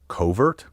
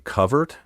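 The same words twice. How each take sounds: First: The word has its newer, popular pronunciation. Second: The word has its traditional, older pronunciation. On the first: "instead of covert" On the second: "why I say covert"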